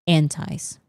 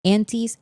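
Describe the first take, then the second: First: "antis" with its second syllable like "tie"; antis ending in "ties". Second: "antis" with its second syllable like "tease"; antis ending in "teez". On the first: Streamer showing viewers both pronunciations, "antis" said as AN-ties. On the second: Streamer showing viewers both pronunciations, "antis" said as AN-teez. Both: Shown as a demonstration. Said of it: "both pronunciations".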